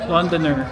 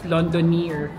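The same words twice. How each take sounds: First: The last syllable has a short, weak vowel. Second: The last syllable has a long 'ee' vowel. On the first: The speaker calls it right. "pero single E lang pala, so Londoner" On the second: The speaker calls it wrong. "akala ko yung Londoner is double E, kaya I pronounce it as Londoner"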